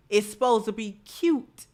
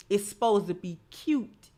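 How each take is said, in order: Both takes have the same delivery.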